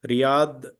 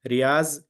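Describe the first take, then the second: First: The name ends with a heavy d-like sound. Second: The name ends with a plain z sound. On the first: "Riyadh is the uh, pronunciation of Dod" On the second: "Riaz, they say in Urdu background people"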